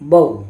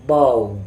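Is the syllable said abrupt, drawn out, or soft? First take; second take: abrupt; soft. First: The syllable is cut off with a jerk. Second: The syllable is said softly and smoothly. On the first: The speaker calls it wrong. "ना ही झटका देकर पढ़ना है" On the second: The speaker calls it right. "नरमी के साथ पढ़ना है"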